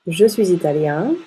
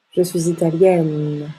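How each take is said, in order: First: Italien rising on nasal yen; nasal ien ending. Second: Italienne with open yè and held n; open mouth ending. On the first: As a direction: keep the N silent in italien. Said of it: "se prononce ien". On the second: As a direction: slowly sound the n ending italienne. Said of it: "on ouvre la bouche". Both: Shown as a demonstration.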